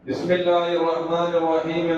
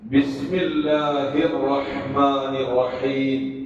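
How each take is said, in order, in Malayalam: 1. അറബി ശബ്ദങ്ങൾ അയഞ്ഞതും കൃത്യതയില്ലാത്തതുമായ രീതിയിലാണ് ഉച്ചരിക്കുന്നത്. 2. അറബി ശബ്ദങ്ങൾ കൃത്യമായും ശ്രദ്ധയോടെയും ഉച്ചരിക്കുന്നു. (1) "എന്ന് പറയുന്ന രീതിയിൽ നിന്ന് മാറ്റി" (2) "എന്ന രീതിയിലേക്ക് തജ്വീദിന്റെ നിയമപ്രകാരം"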